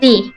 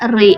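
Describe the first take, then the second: First: The syllable starts with an L sound. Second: The syllable starts with an R sound. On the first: "di Jepang tuh nggak bisa ngomong L" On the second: "itu jadi kayak ri"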